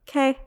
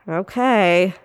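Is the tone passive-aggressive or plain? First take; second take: plain; passive-aggressive. First: It sounds plain and neutral. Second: It sounds passive-aggressive.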